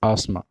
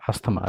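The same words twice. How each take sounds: First: Asthma said "aas-ma", th silent; correct pronunciation. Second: Asthma said "as-tha-ma", th sounded; wrong pronunciation. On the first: Teacher giving students the correct form, correct pronunciation. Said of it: "correct form of pronunciation is". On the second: Teacher warning students off this form, wrong pronunciation. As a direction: sound the th in asthma as its own syllable. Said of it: "This is not asthma". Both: Shown as a demonstration.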